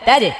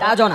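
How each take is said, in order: First: The j is released with an e-like echo. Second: The j is released with an o-like echo. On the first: The speaker calls it right. "জিমের কলকলা নিচের দিকে যাবে, জেরের মতো হবে" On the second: The speaker calls it wrong. "তাজো না"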